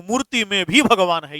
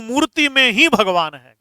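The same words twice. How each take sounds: First: भी said evenly as the correct example; right usage with भी. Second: ही said firmly as the wrong example; wrong usage with ही. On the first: Teacher giving the correct sentence to the class with भी. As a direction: state it with भी, the accepted version. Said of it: "ये ठीक है।". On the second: Teacher giving the wrong sentence to the class with ही. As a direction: state it with ही, the version marked wrong. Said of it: "गलत।". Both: Shown as a demonstration.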